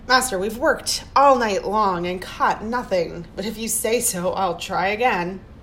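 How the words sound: It sounds sarcastic and mocking.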